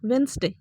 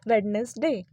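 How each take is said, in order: First: The first d sound is silent, two syllables. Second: The first d sound is pronounced, three syllables. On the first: The speaker calls it right. "जो उसका correct pronunciation है ना, वो होता है वेंसडे" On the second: The speaker calls it wrong. "जो कि ये भी एक गलत प्रोनाउंसिएशन है"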